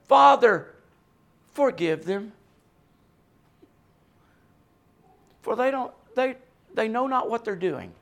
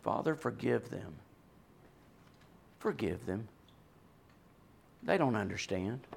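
First: Tender plea. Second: Much softer and lower, almost hushed; quiet forgiving plea. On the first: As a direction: plead gently for their forgiveness. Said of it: "he looks upon them and he says". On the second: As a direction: breathe the words of mercy gently. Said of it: "Not Jesus". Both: Retold or imitated.

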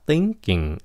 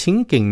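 First: THINKING slowly, TH like a light Vietnamese T. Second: THINKING with a mispronounced TH; wrong TH. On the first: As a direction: model THINKING with the TH as "tê". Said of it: "I'm tê". ("thinking" đọc TH như âm tê) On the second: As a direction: say THINKING wrongly, as a learner would. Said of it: "đừng có thinking nha". (phát âm sai âm TH trong "thinking") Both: Shown as a demonstration.

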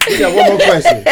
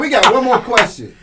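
First: Much higher, laughing through it. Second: Said in the usual way. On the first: Real, not acted. Host repeating the announcement to the guests, laughing hard. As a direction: crack up as you repeat it.

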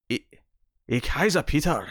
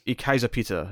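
First: Halting, effortful Scottish-accented German. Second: Rough, loose German accent; attempted German accent. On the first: Trying to make a German phrase sound Scottish, Scottish accent. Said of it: "make that sound Scottish". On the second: Showing co-host their put-on foreign-language voice, attempted German accent. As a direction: put on a not-quite-accurate German accent. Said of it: "an accurate German accent". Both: Shown as a demonstration.

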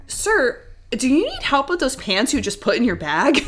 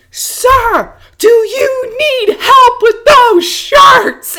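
First: Sugary sweet retail clerk, pitched higher; overly helpful with a laugh underneath; mock polite. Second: High, loud, drawn-out yell; screaming across the store. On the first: Clerk teasing a shoplifter with sweet politeness. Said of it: "one of them that I would always say would be like". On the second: Retold or imitated. Clerk yelling from the register at a thief, screaming. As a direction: belt it across the room, slowly. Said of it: "screamed it into the men's section".

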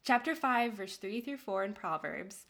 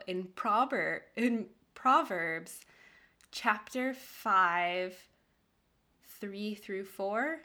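First: Said in the usual way. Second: Slow and careful, unsure of the wording; unsure slow reading. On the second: Shown as a demonstration. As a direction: read each word slowly, testing it. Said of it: "I think that's right. Is that how you say a Bible thing".

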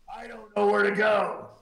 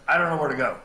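First: High-pitched helpless whine, acted out; imitating a flustered driver; flustered mock protest. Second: Said in the usual way. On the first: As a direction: repeat it higher, at a loss. Frank repeats himself, flustered, retold.

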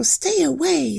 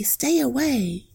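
First: High hissing cat warning. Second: High, slow drawn-out cat warning; slower cat warning. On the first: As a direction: shoo the dog off as a cat. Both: A narrator's reading. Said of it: "hissed and spat and said".

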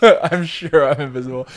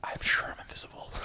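First: Deadpan voiced Drax line; Drax impression. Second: Whispered Drax line. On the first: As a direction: say it like literal-minded Drax. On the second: Retold or imitated. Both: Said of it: "let's get some Drax lines".

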